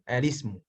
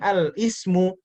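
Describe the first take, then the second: First: Al runs straight into ismu without a break. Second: Al is separated from ismu by a glottal stop. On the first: The speaker calls it right. "tapi bacanya alismu" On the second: The speaker calls it wrong. "bacanya bukan al ismu"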